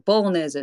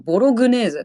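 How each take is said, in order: First: The word is said without a g sound. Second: The word is said with a g sound. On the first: The speaker calls it right. "英語で言うとボロネーゼって、そんなG は発音しないんだよね" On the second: The speaker calls it wrong. "日本人ってさ、ついついそういうの見ると、ボログネーゼってこう言っちゃうじゃん"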